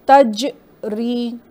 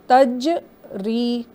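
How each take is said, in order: No difference in how they are said.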